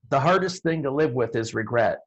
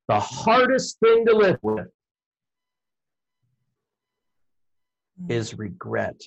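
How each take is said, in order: First: It is read plainly without added pauses. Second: It is delivered with pauses and strong emphasis. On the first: This is the line as written on paper. "you could write a line like" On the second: This is the line as performed on stage. "the way it comes out on stage is"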